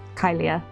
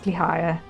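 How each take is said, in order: First: The name begins with a 'ky' sound. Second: The name begins with a 'kli' sound. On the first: The speaker calls it wrong. "not Kylia" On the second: The speaker calls it right. "I think it's Klihaya"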